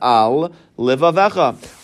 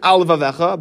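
First: The two L sounds are said separately. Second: The two L sounds run together into one. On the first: The speaker calls it right. "It's al livavecha" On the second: The speaker calls it wrong. "it's very easy to read it al livavecha, but that's not the word"

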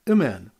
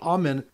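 First: The first vowel is a short reduced sound. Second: The first vowel is a full open a. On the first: The speaker calls it wrong. "pronounced with the Shiva" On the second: The speaker calls it right. "instead of a kamatz gadol"

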